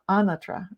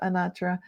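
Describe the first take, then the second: First: The name is said with an Italian pronunciation. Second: The name is said with an American pronunciation. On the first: "you go to Italy and you find out it's" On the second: "in America Sinatra, Anatra"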